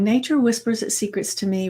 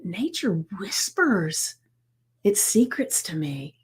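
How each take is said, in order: First: It is said plainly, without much feeling. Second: It is said with strong, heartfelt emotion. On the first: The speaker only recites the affirmation. The speaker calls it wrong. "just saying" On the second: The speaker truly feels the affirmation. The speaker calls it right. "it's feeling the words"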